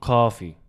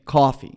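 First: Coffee copied with a rounded East Coast aw; mimicking East Coast accent. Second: Own East Coast accent. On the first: Friend mimicking her accent, East Coast Coffee. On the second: Shown as a demonstration. Asking a friend to mimic, East Coast Coffee. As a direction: say Coffee the way back east says it. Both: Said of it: "mimic me".

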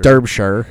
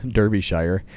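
First: Derbyshire squeezed to DERB-sher, louder; loud correction, Derbyshire with a reduced "sher" ending; corrected pronunciation. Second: Derbyshire said as DER-bee-shire; spelled-out pronunciation. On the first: Repeats name in corrected pronunciation. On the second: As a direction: say Derbyshire as written, ending like "shire". Sounds out county name, then corrects it. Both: Real, not acted.

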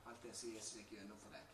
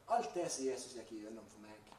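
First: Much softer, lowered voice; hushed repeat. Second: Emphatic statement. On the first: Preacher turns to the listener, for you, soft intimate delivery. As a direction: drop the volume and bring it close. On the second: Preacher reflects on what Jesus went through for him, emphatic delivery. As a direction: press firmly into "alt det" at the start. Rhetorical repeat, me against you. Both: Real, not acted.

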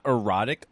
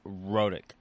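First: EROTIC said with an unstressed er- before the ROT; wrong word. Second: EROTIC cut to two syllables, RO-tic, starting on the R; right word. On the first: Correcting the cohost on a term, wrong word contrasted. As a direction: give "erotic" its extra opening syllable, er-ROT-ic. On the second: Correcting the cohost on a term, right word demonstrated. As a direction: say "erotic" as rhotic, no opening vowel. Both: Shown as a demonstration. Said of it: "not erotic".

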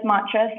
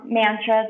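First: Mantras with a broad ah, MAHN-truhs; corrected pronunciation. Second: Mantras with a flat a as in cat, MAN-truhs; unsure pronunciation. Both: Shown as a demonstration. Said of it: "I never know how to say that word".

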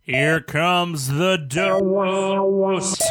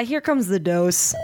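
First: Loud, slow, drawn-out announcer call. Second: Loud, slow repeat of the slogan; loud announcer echo. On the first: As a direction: boom it out like a segment jingle. Segment jingle line over music. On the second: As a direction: call it out again, a bit slower. Echoes the segment line. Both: Acted.

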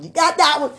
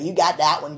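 First: High, louder exclaimed retort; emphatic repeat. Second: Said in the usual way. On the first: Retold or imitated. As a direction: throw it back higher and louder. Repeats God's answer, exclaiming.

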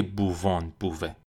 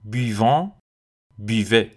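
First: بووان said with a rounded bu, the wrong way; mock the error بووه with a bu sound; wrong pronunciation. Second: بیوان said with a short bi sound, no bu; بیوه with a clear bi, not buve; correct pronunciation. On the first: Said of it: "نه که". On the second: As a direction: stress the bi in بیوان. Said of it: "ولی بو نیست، بیه". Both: Shown as a demonstration.

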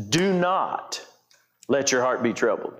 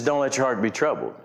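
First: "Do not" raised and set apart, then a pause; weighty "Do not" before the rest of the command; stress on DO NOT. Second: Said in the usual way. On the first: Shown as a demonstration. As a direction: punch "Do not", let the rest fall. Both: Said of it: "emphasize a couple of words".

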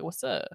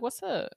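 First: Said in the usual way. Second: A higher, friendly what's up; higher greeting. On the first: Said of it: "be like". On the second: Retold or imitated. Answering a fan in a DM, higher and friendly. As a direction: pitch it up like greeting a homie. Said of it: "And I'll be like".

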